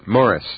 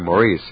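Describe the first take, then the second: First: The name is said the non-American way, like Morris. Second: The name is said the American way, like Maurice. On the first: "now you pronounced it correctly, too" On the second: "Americans say"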